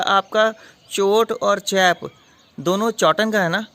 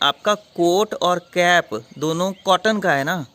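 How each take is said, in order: First: The 'k' sounds are said as 'ch'. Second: The 'k' sounds are said as 'k'. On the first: The speaker calls it wrong. "ये क्या बोल रही हो तुम" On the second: The speaker calls it right. "ऐसे बोलते हैं"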